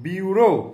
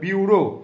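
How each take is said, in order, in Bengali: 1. প্রথম অংশটি 'byoo' ধ্বনি। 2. প্রথম অংশটি 'byoo' ধ্বনি।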